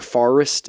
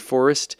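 First: It is said with a Bostonian accent. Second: It is said with a standard accent.

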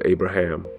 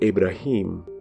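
First: The name is said with an English pronunciation. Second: The name is said with a Hebrew pronunciation. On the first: "instead of" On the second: "the way it's pronounced in Hebrew"

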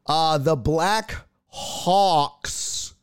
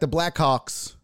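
First: The name is said slowly and carefully. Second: The name is said quickly and run together. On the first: The speaker calls it right. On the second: The speaker calls it wrong.

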